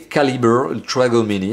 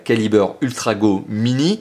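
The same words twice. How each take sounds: First: It is said with an English accent. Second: It is said with a French accent. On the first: "en anglais, avec mon accent anglais euh, formidable" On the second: "En français, ça donne"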